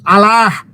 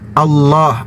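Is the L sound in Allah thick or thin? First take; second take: thin; thick. First: The L sound is thin and light. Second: The L sound is thick and heavy. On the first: The speaker calls it wrong. "bukan Allah" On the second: The speaker calls it right. "dibaca tafkhim, dibaca tebal"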